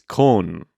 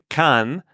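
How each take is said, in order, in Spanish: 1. La vocal es un sonido 'o'. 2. La vocal es un sonido 'a'. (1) "cuando es con" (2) "Yo estaba diciendo can como A-N"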